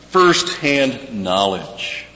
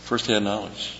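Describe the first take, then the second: First: First-hand knowledge drawn out slowly, firsthand stressed; slow stressed phrase. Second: First-hand knowledge repeated much softer; soft echo. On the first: Preacher spelling out first-hand knowledge for the congregation, slow and stressed. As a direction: lean on firsthand and stretch the words. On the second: Preacher echoing his own phrase to let it sink in, softly. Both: Shown as a demonstration.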